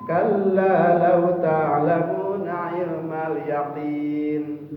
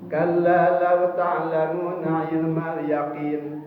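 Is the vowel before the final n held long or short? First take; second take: long; short. First: The vowel before the final n is lengthened. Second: The vowel before the final n is short. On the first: The speaker calls it right. "aya panjangan dua harokat minimal" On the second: The speaker calls it wrong. "teu aya madan eta"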